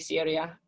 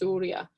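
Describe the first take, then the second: First: The first vowel sounds like the usual English one. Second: The first vowel is a rounded Greek upsilon sound. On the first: "We usually just say Syria, and that's fine too" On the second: "technically it's Surya"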